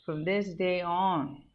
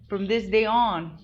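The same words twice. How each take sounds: First: Said in the usual way. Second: Higher, firm, slow vow; slow, emphatic declaration; declared out loud. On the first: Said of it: "not gonna do it right now". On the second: Retold or imitated. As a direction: proclaim it like a resolution. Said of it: "I just fucking said out loud".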